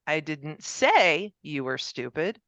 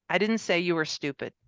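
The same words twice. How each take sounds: First: "say" drawn out with a rise, said slowly; slow down and lift "say" to imply something else; stress on say. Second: "didn't" hit hardest, sentence falling after it; stress on didn't. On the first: Lecturer showing how stressing "say" changes the meaning. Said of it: "But that could be said". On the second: Lecturer demonstrating stress on "didn't" to the class. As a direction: lean on "didn't" as a flat denial. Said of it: "depending on the emphasis on the words". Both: Shown as a demonstration.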